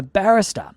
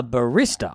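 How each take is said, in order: First: "barrister" with the stress on the first syllable; mispronounced job title. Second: "barista" drawn out, stressed on the middle syllable; corrected pronunciation. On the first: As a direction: say "barrister" as BARR-ister. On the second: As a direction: say "barista" slowly as ba-RIS-ta. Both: Retold or imitated. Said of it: "No, I mean barista".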